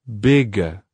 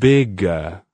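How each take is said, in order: The two takes are said the same way.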